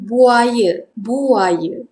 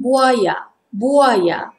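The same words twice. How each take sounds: First: Everyday "buaya" ending in a schwa; informal Malay pronunciation. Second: Formal "buaya" ending in a full A; careful "buaya", open last vowel; formal Malay pronunciation. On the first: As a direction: say "buaya" as bu-a-yuh. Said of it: "But we say informal pronunciation". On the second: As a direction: say "buaya" as bu-a-yah. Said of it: "Formal pronunciation". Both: Shown as a demonstration.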